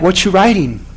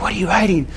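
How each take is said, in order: First: Said in the usual way. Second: Lightly voiced creepy stranger, softer. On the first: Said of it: "Like, in a creepy voice". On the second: Nosy plane passenger to the pastor, mildly creepy. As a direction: hush it a little, imitating a creepy seatmate. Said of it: "Like, in a creepy voice, by the way".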